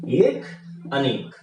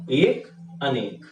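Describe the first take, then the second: First: Said in the usual way. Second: एक, अनेक spelled out slowly with a pause between; drilling एक, अनेक slowly for students; slow recitation. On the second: Shown as a demonstration. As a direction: say एक, अनेक slowly like a rule to memorise. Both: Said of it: "हमको ध्यान क्या रखना है".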